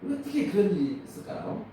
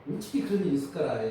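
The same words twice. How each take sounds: First: Said in the usual way. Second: Quick Jeolla-dialect 어떻게 그런 일이 있을까라 with a falling end. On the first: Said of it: "이게 전라도 말이에요". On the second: Shown as a demonstration. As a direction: rattle it off the Jeolla way. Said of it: "이게 전라도".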